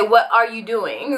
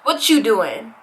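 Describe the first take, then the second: First: The phrase is said fully, keeping every word. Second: The phrase is clipped, dropping the word 'are'. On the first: This sounds like a learner speaking carefully. "No, they're gonna say" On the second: This sounds like a fluent native speaker. "they're not going to come right out the boat saying"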